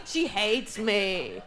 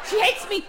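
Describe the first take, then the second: First: She hates me, drawn out slow and lower; deadpan slow repeat. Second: Said in the usual way. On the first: Shown as a demonstration. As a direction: let it sink in, slowly and down low.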